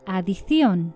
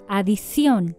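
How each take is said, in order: First: The c is sounded like th. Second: The c is sounded like s. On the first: "Sin ceseo" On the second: "con ceseo"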